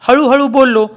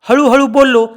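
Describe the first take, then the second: The two takes are said the same way.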